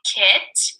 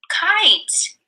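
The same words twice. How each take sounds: First: Said in the usual way. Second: Kite jumping high on the long I; long vowel stressed. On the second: Shown as a demonstration. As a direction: kite lifted high, falling.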